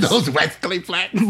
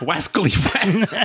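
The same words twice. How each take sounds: First: Laughing Elmer Fudd lisp. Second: "Wascally Flats" with W for R, laughing; laughing Elmer Fudd lisp. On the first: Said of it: "Wascally Flats". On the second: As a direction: say "Wascally" with a W in place of the R. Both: Pretend.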